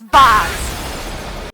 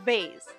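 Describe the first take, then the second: First: Vase is pronounced a non-American way. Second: Vase is pronounced the American way. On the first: The speaker calls it right. "It's vase" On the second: The speaker calls it wrong. "That sounds like the uncultured American way"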